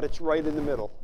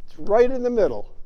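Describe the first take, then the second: First: Said in the usual way. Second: Emphatic repeat. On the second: Shown as a demonstration.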